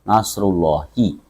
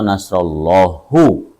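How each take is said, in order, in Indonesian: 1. Frasa ini diakhiri dengan vokal i. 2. Frasa ini diakhiri dengan vokal u. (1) "mudhofun ilaih selamanya harus dijarkan, dibaca kasroh" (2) "atau nasrullahu"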